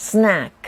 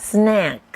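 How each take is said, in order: First: Snack said again with a clear s at the start; teacher repeats snack clearly; model pronunciation repeated. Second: Snack said slowly and clearly as a teacher's model; careful teacher demo of snack; model pronunciation. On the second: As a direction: say snack crisply for the class to copy. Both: Shown as a demonstration. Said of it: "ขนมกรุบกรอบภาษาอังกฤษว่ายังไงคะ".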